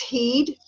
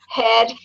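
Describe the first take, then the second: First: The vowel is a long e sound. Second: The vowel is a short e sound.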